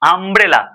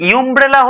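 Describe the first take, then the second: First: The word begins with an 'uh' sound. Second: The word begins with a 'yoo' sound. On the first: The speaker calls it right. "আ উচ্চারণ হচ্ছে" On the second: The speaker calls it wrong. "এটা উচ্চারণ কি ইউমব্রেলা হচ্ছে? হচ্ছে না কিন্তু।"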